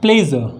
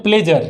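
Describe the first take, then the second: First: प्लेजर with a z sound and silent r, "ple-zuh"; correct pronunciation. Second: प्लेजर with a hard j and sounded final r, "play-jar"; Hindi-style प्लेजर with j instead of zh; common mispronunciation. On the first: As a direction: model प्लेजर as "ple-zuh", falling at the end. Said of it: "इसको हम कैसे pronounce करेंगे". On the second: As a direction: say प्लेजर the wrong way, as "pled-jar". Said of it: "प्लेजर नहीं है". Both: Shown as a demonstration.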